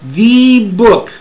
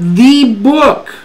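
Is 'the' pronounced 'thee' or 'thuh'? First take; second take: thee; thuh. First: 'The' is said strongly, like 'thee'. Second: 'The' is said weakly, like 'thuh'. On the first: It is that specific book and no other. "a the" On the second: It is a plain, unemphasized mention. "Cambias la pronunciación de da"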